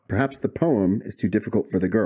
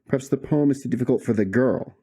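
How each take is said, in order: First: The stress is on the word poem. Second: The stress is on the word girl.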